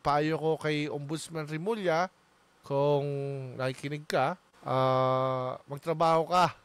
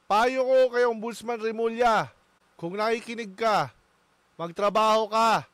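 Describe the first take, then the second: First: The tone sounds gentle and softened. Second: The tone sounds harsh and scolding.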